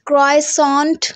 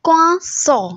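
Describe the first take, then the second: First: An r sound and a final t are pronounced. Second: There is no r sound and no final t. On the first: The speaker calls it wrong. "क्राइसॉन्ट नहीं होता" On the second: The speaker calls it right. "रे बिल्कुल silent है"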